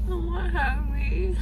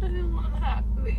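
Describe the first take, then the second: First: Crying. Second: Drugged tearful whine; crying. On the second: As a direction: whimper through numb lips. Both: Real, not acted. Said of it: "you're really crying".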